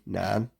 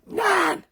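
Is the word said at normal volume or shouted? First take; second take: normal; shouted. First: It is said at normal volume. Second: It is shouted loudly.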